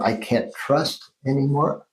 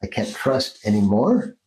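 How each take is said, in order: First: "I can't trust anymore" slow, with weight on "trust"; shifted stress. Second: "I can't trust anymore" with "anymore" stressed and rising; shifted stress. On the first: Therapist demonstrating moved accents, stress on "trust" in "I can't trust anymore". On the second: Therapist demonstrating moved accents, stress on "anymore" in "I can't trust anymore". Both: Shown as a demonstration. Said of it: "Put your accent on a different".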